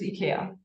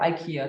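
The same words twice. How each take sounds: First: It is pronounced in a non-American way. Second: It is pronounced in the American way.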